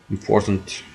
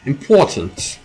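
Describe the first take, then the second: First: Said in the usual way. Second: A lightly put-on British accent on Important!. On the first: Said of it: "Did you like my British". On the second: Streamer mid-game hams up a British accent. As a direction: clip Important! the British way, as a mock posh exclamation. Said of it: "Did you like my British, British accent there?".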